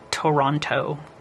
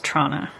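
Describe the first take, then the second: First: The name is said in full, three syllables. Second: The name is clipped to two quick syllables. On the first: The speaker is not a local. The speaker calls it wrong. "Not Toronto" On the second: The speaker is a local. The speaker calls it right. "that's how it's pronounced"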